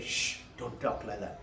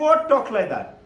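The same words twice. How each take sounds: First: Low, soft maternal shush; hushing. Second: Put-on higher, louder child's comeback; indignant retort. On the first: Retold or imitated. Mother to child about the monks, hushed reproof. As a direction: quietly hush a child who spoke out of turn. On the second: Child answering back to mother, indignant. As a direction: throw the reproof back, pitched up.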